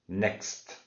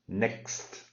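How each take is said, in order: Both takes have the same delivery.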